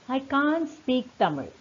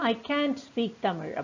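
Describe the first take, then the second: First: It is said with a British accent. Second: It is said with an American accent.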